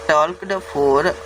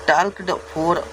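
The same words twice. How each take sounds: No difference in how they are said.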